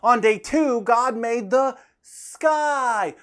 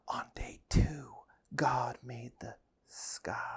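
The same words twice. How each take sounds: First: It is said loudly. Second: It is said quietly.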